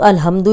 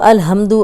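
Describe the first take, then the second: The two takes are said the same way.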